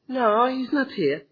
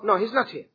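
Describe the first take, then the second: First: It is said in a soft, gentle voice. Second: It is said plainly and firmly. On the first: The answer invites the caller to call back. The speaker calls it wrong. "Is it the same? Then you ring again" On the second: The answer is only information. The speaker calls it right. "Exactly. Like him"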